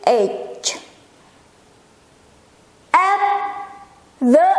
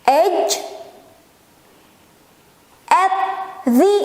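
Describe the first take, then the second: No difference in how they are said.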